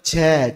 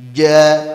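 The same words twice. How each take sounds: First: A strong stream of breath flows on each j. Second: The j is forced completely dry with no breath. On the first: "Nah ini baru dipermasalahkan ini" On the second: "Supaya benar-benar kering, enggak ada hamasnya"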